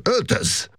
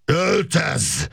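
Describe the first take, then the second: First: Short, high-pitched cold order; icy, quick command without shouting. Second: Drawn-out high yell, held back in volume; strained, high acted bellow without real loudness. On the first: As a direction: order it curtly in a raised pitch. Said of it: "mondta ridegen Makos Gábor". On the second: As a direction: yell the order with pitch shooting up. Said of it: "üvöltötte". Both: A narrator's reading.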